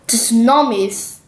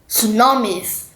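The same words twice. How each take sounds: First: The word begins with an audible T sound. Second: The word begins without any T sound. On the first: The speaker calls it wrong. "not tsunamis, no" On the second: The speaker calls it right. "you do not need to say the T"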